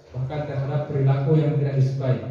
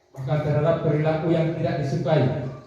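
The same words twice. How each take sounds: The two takes are said the same way.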